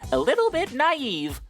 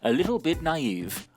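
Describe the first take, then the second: First: It is said in a put-on cartoon voice. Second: It is read in the speaker's ordinary voice.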